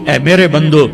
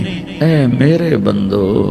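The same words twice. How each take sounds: First: It is said in a plain, unaffectionate tone. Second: It is said in a tender, loving tone. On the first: The speaker calls it wrong. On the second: The speaker calls it right.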